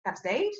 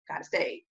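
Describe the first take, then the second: First: STAGE lifted as a surprised question; questioning echo. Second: STAGE falling, low-key confirmation; settled statement. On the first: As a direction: echo it back, voice rising on STAGE. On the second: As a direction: say it back as settled fact, dropping on STAGE. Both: Retold or imitated. Quoting own reaction, question then confirmation.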